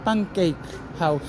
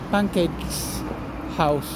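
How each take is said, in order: First: No s sound follows pancake. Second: An s sound follows pancake. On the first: This is the standard form. The speaker calls it right. "lo correcto es decir pancake house" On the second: This is how the character talks. The speaker calls it wrong. "nuestro personaje habla así"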